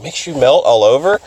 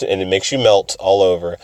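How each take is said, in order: First: "melt all over" lifted into a question; questioning echo. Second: Said in the usual way. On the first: Retold or imitated. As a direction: repeat "makes you melt all over" wonderingly, rising. Echoes the answer as question.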